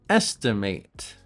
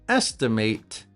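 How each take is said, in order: Both takes have the same delivery.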